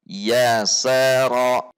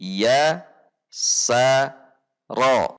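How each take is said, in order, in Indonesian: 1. Suku katanya disambung tanpa jeda. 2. Suku katanya dipisah dengan jeda. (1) "kemudian digabung ulang" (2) "boleh diputus terlebih dahulu"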